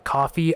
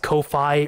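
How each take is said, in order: First: The first syllable sounds like 'cough'. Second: The first syllable sounds like 'co'. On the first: The speaker calls it right. "I think it's just coffee" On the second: The speaker calls it wrong. "I pronounced it Ko-Fi at first"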